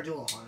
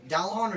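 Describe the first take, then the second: First: Dualahan with first syllable as "doo"; alternative pronunciation. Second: Dualahan with first syllable as "dal"; unsure pronunciation. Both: Shown as a demonstration. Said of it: "I'm not sure how you say it".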